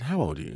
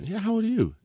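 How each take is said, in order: First: Said in the usual way. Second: Much higher mocking repeat; mocking echo. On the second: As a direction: parrot the line back to embarrass. [name] mockingly repeats the line.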